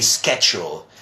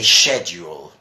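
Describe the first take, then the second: First: Schedule said the American way with a SK sound. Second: Schedule said the British way with a SH sound. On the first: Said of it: "Americans would mostly say schedule". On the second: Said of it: "in British English you say schedule". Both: Shown as a demonstration.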